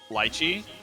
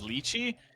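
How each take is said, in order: First: The word is said with a British pronunciation. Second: The word is said with an American pronunciation. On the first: "The British pronunciation is lychee" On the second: "The American pronunciation is lychee"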